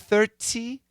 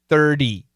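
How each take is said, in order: First: The middle consonant is a crisp T sound. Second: The middle consonant is a soft D sound. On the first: This is the British way. "that's very British" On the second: This is the usual American way. "make it a D"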